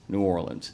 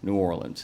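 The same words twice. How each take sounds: First: It is said the way most locals say it. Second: It is said the way most locals say it.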